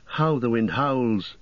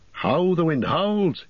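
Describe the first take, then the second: First: Said in the usual way. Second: High, drawn-out cry of alarm. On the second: A narrator's reading. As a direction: call it out high and slow, urgently. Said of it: "he cried".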